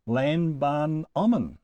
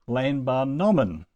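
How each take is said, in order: First: Lambanomon sounded out slowly in separate parts; slow, syllable by syllable. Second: Lambanomon joined up, with BA stressed; stress third-to-last syllable. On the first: Teacher introducing the third person plural, lambanomon slowly sounded out. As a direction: draw out lambanomon piece by piece, lam, ban, omon. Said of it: "this time in the third person plural". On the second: Teacher showing the accent's place, lambanomon stressed on BA. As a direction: hit BA in lambanomon and let the last two syllables fall. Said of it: "it can go on the third to last syllable".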